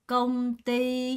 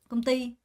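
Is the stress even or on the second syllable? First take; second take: even; second syllable. First: Both syllables get about equal weight. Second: The stress falls on the second syllable. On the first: The speaker calls it wrong. "이렇게 읽는 사람은 아무도 없어요" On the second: The speaker calls it right. "띠 강세가 있는 거 느껴지죠?"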